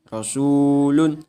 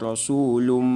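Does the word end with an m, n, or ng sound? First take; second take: n; m. First: The word ends with a clear n sound. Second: The word ends with an m sound. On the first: The speaker calls it right. "harus diidharkan tanwinnya" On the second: The speaker calls it wrong.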